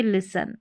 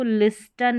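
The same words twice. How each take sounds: First: लिसन with silent T; correct pronunciation. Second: लिस्टन with the T sounded; wrong pronunciation. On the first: Teacher showing how we read it, लिसन without T. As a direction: say लिसन, s straight into n. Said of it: "हम पढ़ेंगे लिसन". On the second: Teacher showing learners what not to read, लिस्टन with spoken T. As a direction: say लिस्टन with an audible t after the s. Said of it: "लिस्टन नहीं पढ़ेंगे, हम पढ़ेंगे लिसन". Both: Shown as a demonstration.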